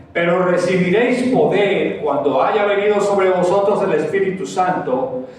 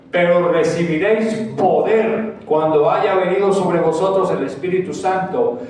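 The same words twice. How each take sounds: Both takes have the same delivery.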